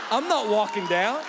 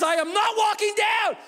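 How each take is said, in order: First: Said in the usual way. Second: Much higher, louder shout; dad yelling he won't walk down; exasperated yell. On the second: Retold or imitated. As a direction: yell it at the kids. Shouted quote at the top.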